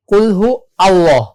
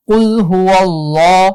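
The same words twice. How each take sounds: First: "কুল হু আল্লাহ" with a break after হু; "কুল হু আল্লাহ" in separate words, little stretching; common mistake, unjoined. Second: "কুল হু আল্লাহ" slow and linked as hu-wallah; drawn-out, connected "কুল হু আল্লাহ"; correct joined recitation. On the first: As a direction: start আল্লাহ afresh on its own "a" in "কুল হু আল্লাহ". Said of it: "maximum মানুষ যে ভুলটা করি". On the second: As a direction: glide from হু into a long held ল in "কুল হু আল্লাহ". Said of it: "ওয়াও থেকে সরাসরি লামকে ধরবে". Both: Shown as a demonstration.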